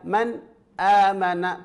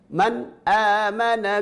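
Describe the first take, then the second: First: There is a short break after the n. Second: The n runs straight into the next word. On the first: The speaker calls it wrong. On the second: The speaker calls it right.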